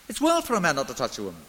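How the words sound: The sentence sounds genial and accommodating. Being single is fine but not required. The speaker calls it right. "I think his tone would have been accommodating, concessionary, and even genial"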